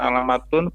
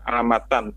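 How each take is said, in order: First: The word ends in the sound -un. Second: The word ends in the sound -an. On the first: The speaker calls it wrong. "bukan alamatun" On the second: The speaker calls it right. "dibaca alamatan"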